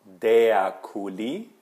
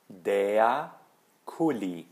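First: "Der Kuli" slow, ending on a rise; slow teacher's prompt, "Der Kuli" left rising; model for repeating. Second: "Der", pause, "Kuli" falling; word-by-word "Der Kuli", settling downward at the end; model for repeating. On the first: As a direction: say "Der Kuli" slowly, lifting the last syllable. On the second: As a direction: split "Der Kuli" in two and close on a fall. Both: Shown as a demonstration. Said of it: "Falando comigo".

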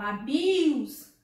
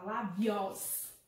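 First: "Labios" as la-BI-us, with a loud, stretched BI; wrong stress on BI. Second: "labios" as LA-byos, the I brief, gliding into O; correct gliding ending. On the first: Teacher testing pupils with a wrong version, "Labios" stressed loudly on BI. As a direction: wrongly punch the middle of "Labios", loud and long. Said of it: "Não, a gente fala labios". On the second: Teacher correcting the wrong version for pupils, "labios" as LA-byos, unforced. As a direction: say "labios" with a short I swelling into the O. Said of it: "a gente fala labios". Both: Shown as a demonstration.

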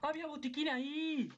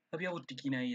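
First: High, drawn-out frustrated cry; exclaiming. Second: Said in the usual way. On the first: Real, not acted. Gamer to himself on spotting a missed medkit, exclaiming. Shouted exclamation, then same words plainly.

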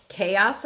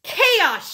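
First: Puzzled, rising one-word query; mock-innocent question. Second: High, loud exasperated yell. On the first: Peter teases Libby, mock-innocent question. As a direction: ask as if it were someone's name. Peter feigns not knowing Chaos. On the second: Libby, really mad at Peter, yelling. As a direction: yell the word with a falling end. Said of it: "she yelled". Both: A narrator's reading.

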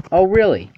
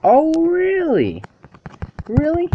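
First: Surprised. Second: Very high, slow "Oh, really?"; squeaky mock disbelief. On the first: Acted. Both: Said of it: "repeated with mock shock".

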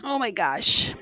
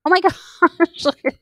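First: Said in the usual way. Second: High, slow laughing oh my gosh. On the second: Real, not acted. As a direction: laugh through the words. Laughing at the fallen dummy.

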